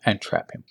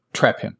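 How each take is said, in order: First: Breathy whisper under breath. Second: Said in the usual way. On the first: Shown as a demonstration. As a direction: drop it to a whisper. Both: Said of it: "trick him, and trap him".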